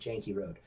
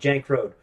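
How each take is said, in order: First: The name ends with a pronounced ee vowel. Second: The name ends on the k sound, no vowel. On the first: This is how the locals say it. The speaker calls it right. "everybody I knew ... pronounced it Janky Road" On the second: One resident insists on saying it this way. The speaker calls it wrong. "That the E was like silent"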